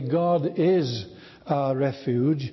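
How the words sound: The stress falls on the word is. It expresses triumphant certainty and confidence. "emphasizing the second"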